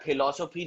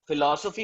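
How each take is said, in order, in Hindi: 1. शब्द ऐस्पिरेटेड p ध्वनि से शुरू होता है। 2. शब्द f ध्वनि से शुरू होता है। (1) "नहीं होता" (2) "होता है"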